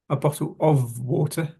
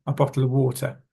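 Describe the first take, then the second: First: "of" said fully with a sounded v; questioning rise on "bottle of water"; over-careful wrong take. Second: "of" shrunk to "uh" without its v; quick "bottle of water" like "bottle-a water"; reduced connected speech. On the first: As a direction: stress and spell out "of". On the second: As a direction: drop the v from "of", falling end. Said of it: "should not have heard there the letter F". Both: Shown as a demonstration.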